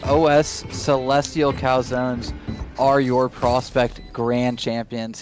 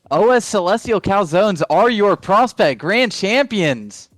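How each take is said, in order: First: It is said flatly with little pitch movement. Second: It is said with lively, energetic pitch and volume. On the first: The speaker calls it wrong. "That was the most monotone way you could have said it" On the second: The speaker calls it right. "There we go"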